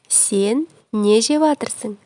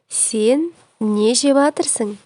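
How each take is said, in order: First: The verb phrase is squeezed into fewer syllables. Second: The same.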